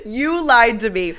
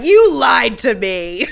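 First: Mock yell. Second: Slow, much louder, higher accusation; mock yell. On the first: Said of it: "out the gate says". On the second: Retelling Olivia yelling at the wife, slow loud accusation. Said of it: "yelling at Stephen Tanzig's wife".

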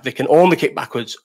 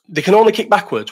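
First: Said in the usual way. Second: "only" pushed higher and louder in the repeat; stress on only. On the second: Real, not acted. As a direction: lean on "only" to insist. Repeating the claim about kangaroos.

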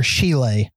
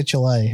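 First: Chile said "SHEE-lay". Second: Chile said "chuh-LAY". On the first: Offering a friend the other accepted way, Chile as SHEE-lay. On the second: Assuring a friend it really is said so, Chile as chuh-LAY. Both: Shown as a demonstration. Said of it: "is how you're supposed to say".

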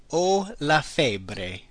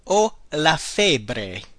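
First: Very slow, soft repeat. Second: Very slow, careful model phrase. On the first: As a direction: drag it out for learners. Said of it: "I have a fever". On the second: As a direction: give every syllable room. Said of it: "The next one is". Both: Shown as a demonstration.

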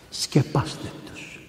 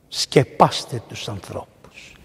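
First: Slow, whispered repeat; slow whispered plea. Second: Slow, lower, tender urging; gently and slowly urge the congregation; slow tender exhortation; slow, soft plea. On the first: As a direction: breathe it as a whisper. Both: Real, not acted.

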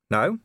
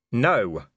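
First: Said in the usual way. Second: Sharply refusing, raised and louder. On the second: A narrator's reading. Vimes refusing the vampire's offered drink, sharply. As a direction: cut the question off sharply. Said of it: "said Vimes more sharply".

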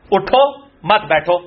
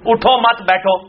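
First: Slow اٹھو, pause, then مت بیٹھو; shifted pause. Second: اٹھو مت بیٹھو with a break after مت; pause placement. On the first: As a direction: split it after اٹھو, slowly. (اٹھو کے بعد وقفہ، پھر آہستہ مت بیٹھو) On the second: (اٹھو مت کے بعد وقفہ، پھر بیٹھو) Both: Shown as a demonstration. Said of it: "اب دو مختلف مت".

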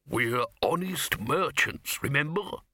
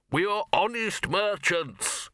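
First: Said in the usual way. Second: Slow, higher announcement for all to hear; repeated loudly. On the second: A narrator's reading. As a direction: say it out loud for the onlookers, drawn out. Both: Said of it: "he repeated loudly".

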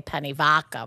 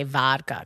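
First: "penne vodka" in a Long Island accent, with vodka said as "vadka". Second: Said in the usual way. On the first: Shown as a demonstration. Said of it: "I'm saying it like that on purpose". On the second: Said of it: "that's too sophisticated".

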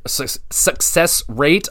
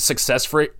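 First: False start, then "success rate" said slowly and deliberately; careful self-correction. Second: "success" tripped over, running muddled into "rate"; fumbled word. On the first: Reviewer correcting own slip on trophy statistics, slow careful "success". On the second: Reviewer quoting trophy statistics, fumbling the word "success". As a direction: stumble on "success" and break off before fixing it. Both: Real, not acted. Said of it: "unlike me saying success".

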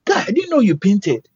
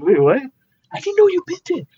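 First: Excited owner. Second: Very high, squeaky voice of stunned disbelief; shocked disbelief. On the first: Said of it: "he jumps at me". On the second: Artist echoes the owner's praise back in shocked squeak. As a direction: echo his words back in a shocked, high voice. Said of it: "I'm even in shock". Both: Retold or imitated.

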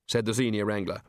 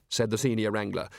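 The two takes are said the same way.

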